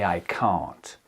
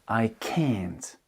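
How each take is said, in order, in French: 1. Il est prononcé avec un accent anglais britannique. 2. Il est prononcé avec un accent anglais américain. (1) "j'ai un accent britannique. Donc, je vais dire" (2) "Là où un américain dira"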